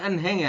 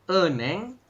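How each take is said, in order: First: The middle h sound is pronounced. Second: The middle h sound is dropped. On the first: The speaker calls it wrong. "Ini bukan enheng ya" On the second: The speaker calls it right. "Dibacanya adalah eneng"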